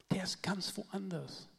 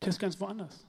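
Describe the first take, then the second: First: Softer and slower. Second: Said in the usual way. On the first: Shown as a demonstration. Preacher softly repeating to the congregation, quiet and slow. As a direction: drop to a soft, slow repeat of "Der ist ganz woanders".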